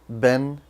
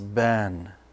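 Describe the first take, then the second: First: The vowel moves quickly into the n sound. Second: The vowel is held long before the n. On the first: The speaker calls it right. "You have to go quick from the alif to the noon sound" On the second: The speaker calls it wrong. "they pronounce it as ban, and that's a mistake"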